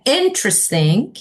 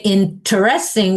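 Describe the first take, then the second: First: "interesting" in three syllables, stressed at the front; first-syllable stress. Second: "interesting" in four syllables, stressed on "rest"; wrong stress. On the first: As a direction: say "interesting" as IN-tres-ting. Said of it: "we say interesting". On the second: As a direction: say "interesting" as in-ter-EST-ing. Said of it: "we never say interesting". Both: Shown as a demonstration.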